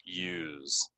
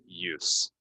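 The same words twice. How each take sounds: First: "use" ending in a voiced z sound; verb form of use. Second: "use" ending in a crisp s sound; noun form of use. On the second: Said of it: "If it's a noun". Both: Shown as a demonstration.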